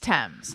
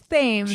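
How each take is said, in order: First: It begins with a plain t sound. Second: It begins with a th sound, as spelled. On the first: This is how it is actually said. The speaker calls it right. "but it's Thames" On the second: This is how the spelling suggests it. The speaker calls it wrong. "It looks like it's Thames"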